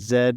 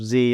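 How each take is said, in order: First: The letter is said the Canadian way. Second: The letter is said the American way. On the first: "you'll say Z" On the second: "instead of Z"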